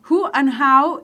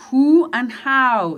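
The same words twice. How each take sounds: First: "Who" with a breathy h, "how" clear, in a quicker second take; who and how again. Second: Slow, careful "Who and how", "who" as "u", "how" as "au"; contrasting who and how. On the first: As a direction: repeat "Who and how" at normal speed. (repetición de "who" y "how" con la h aspirada) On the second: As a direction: spell out the difference between "who" and "how". (pronunciación lenta de "who" y "how") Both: Shown as a demonstration. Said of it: "esta tercera palabra se pronuncia how".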